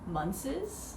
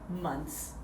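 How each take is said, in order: First: The ending is a distorted, effortful consonant cluster. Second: The ending is a simple ts sound. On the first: This is how learners often say it. The speaker calls it wrong. "I always hear Munces" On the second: This is the simpler recommended way. The speaker calls it right. "forget about the H, just make it like months"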